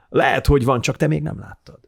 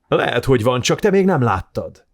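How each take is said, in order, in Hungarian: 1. A hang a végén elhalkul. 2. A hang a legvégéig erős marad. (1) "ott az elvész" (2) "Ez jó"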